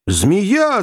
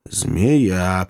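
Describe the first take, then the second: First: High, sudden cry. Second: Said in the usual way. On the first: A narrator's reading. Joe warns companions of a snake, crying out. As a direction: yelp the word in alarm. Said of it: "закричал Джо". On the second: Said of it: "повторил Кеннеди".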